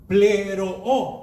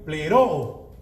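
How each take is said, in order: First: Pleroo with the stress on the first O; slow, careful Greek pleroo; Greek word pleroo. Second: Pleroo, stress on the first O, exactly as heard; Greek word pleroo. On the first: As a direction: say pleroo as ple-RO-o, leaning on the first O. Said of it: "Es acento en la primera O". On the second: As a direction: pleroo as ple-RO-o with a falling end. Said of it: "así como lo oye". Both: Shown as a demonstration.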